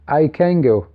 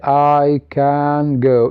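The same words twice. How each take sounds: First: The words run together rapidly with assimilated sounds. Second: Each word is said separately without assimilation. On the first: The speaker calls it right. "as combination, as rapid" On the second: The speaker calls it wrong. "You do not say I can go"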